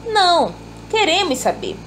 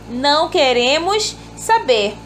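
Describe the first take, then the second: First: There is a pause after the first word. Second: There is no pause between the words. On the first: They do want to know. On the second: They do not want to know.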